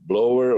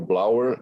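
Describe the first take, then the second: First: The name's vowel sounds like 'oh'. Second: The name's vowel sounds like 'ow'. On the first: This is how the speaker first said it. "eu pronunciei Blower" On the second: This is how others in the meeting said it. "Eu ouvi os senhores se, se, é, pronunciando Blauer"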